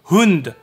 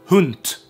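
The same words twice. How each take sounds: First: The word ends in a voiced d sound. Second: The word ends in a voiceless t sound. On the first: "wird auf Schwedisch Hund ausgesprochen" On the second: "nicht Hund"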